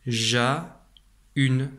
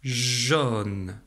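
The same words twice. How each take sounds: First: Ja-une split as /ʒa-yn/ with A and U read apart; wrong reading. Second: Jaune said as one sound /ʒɔn/ with AU read as O; correct jaune. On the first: Teacher to child, demonstrating the wrong reading. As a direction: split ja-une into two sounds. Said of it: "ça donnerait le mot". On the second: Teacher to child, modelling the correct reading. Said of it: "comme dans". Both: Shown as a demonstration.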